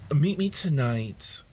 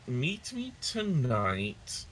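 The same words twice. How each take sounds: First: It is said in a put-on character voice. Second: It is said in the speaker's natural voice. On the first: The speaker calls it right. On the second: The speaker calls it wrong.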